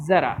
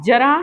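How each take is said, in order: First: ज़रा with z; ज़रा starting with a clear z; with nukta. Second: जरा with plain j; जरा said with ज as in jar; without nukta. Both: Shown as a demonstration. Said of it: "अंतर है आवाज़ में".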